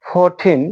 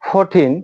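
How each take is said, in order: No difference in how they are said.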